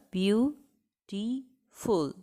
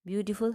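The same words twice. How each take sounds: First: "Beautiful" very slowly, in three widely spaced beats; split into syllables. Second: Said in the usual way. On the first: Shown as a demonstration. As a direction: break "Beautiful" up as beau, ti, ful with long pauses. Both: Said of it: "how many syllables are there".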